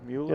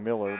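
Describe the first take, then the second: First: The first vowel sounds like 'mule'. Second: The first vowel sounds like 'mill'. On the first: This is how the player says his own name. "I think he pronounces it Mueller" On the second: This is how the announcer in the gym says it. "P A guy here keeps saying Miller"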